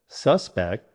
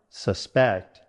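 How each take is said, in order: First: The stress is on the first syllable. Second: The stress is on the second syllable. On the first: It names a person thought guilty. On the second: It means to believe something might be true.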